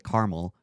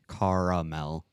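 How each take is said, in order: First: The word is said with two syllables. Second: The word is said with three syllables. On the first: The speaker calls it wrong. "no, that's a place in California" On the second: The speaker calls it right. "there, you got the second A"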